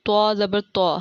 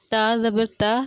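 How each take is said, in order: First: Heavy, emphatic t with rounded vowel in تو; distinct letter articulation. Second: Light, thin t in تا; distinct letter articulation. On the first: Teacher showing learners how similar letters differ, heavy t. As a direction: say تو as a full-mouthed Arabic Ta. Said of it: "ان کی ادائیگی بالکل". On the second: Teacher showing learners how similar letters differ, light t. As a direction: say تا with a plain, unemphatic t. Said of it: "میں پڑھ کے بتاتی ہوں کیسے". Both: Shown as a demonstration.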